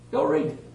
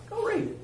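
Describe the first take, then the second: First: Said in the usual way. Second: Emphatic challenge. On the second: Real, not acted. Preacher challenging hearers to check scripture.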